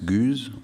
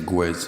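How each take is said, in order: First: The name is said the German way. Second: The name is said the Italian way. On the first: "In Germany, it's Guze" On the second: "I live in Italy now, so I say Guez. It's a more Latin"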